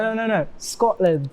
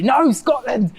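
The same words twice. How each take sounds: First: Mildly insistent, slightly raised pitch; easygoing retold correction; unoffended correction. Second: Indignant outburst, pitched high; high, emphatic mock protest; mock offended Scot. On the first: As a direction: correct them patiently without taking offence. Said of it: "to me, it's not offensive". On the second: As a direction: play the affronted born-and-bred local. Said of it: "if I was a Scot-, born and bred Scottish person".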